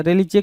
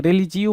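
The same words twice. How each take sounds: First: रिलीजे ending in "jay"; wrong pronunciation. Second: रिलीजियो ending in "jee-oh"; correct pronunciation. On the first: Retold or imitated. (गलत उच्चारण, अंत में "जे") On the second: Shown as a demonstration. (सही उच्चारण, अंत में "जियो") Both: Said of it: "रिलीजियो होता है ना".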